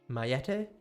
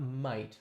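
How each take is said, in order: First: It is said as two syllables, the French way. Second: It is said as one syllable, like might. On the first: The speaker calls it right. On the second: The speaker calls it wrong. "So not might, like I'm pronouncing it"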